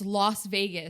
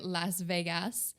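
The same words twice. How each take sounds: First: It is said the American way. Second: It is said the Quebec French way.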